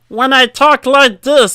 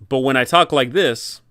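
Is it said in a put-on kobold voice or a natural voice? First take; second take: kobold voice; natural voice. First: It is said in a put-on kobold voice. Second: It is said in his natural voice.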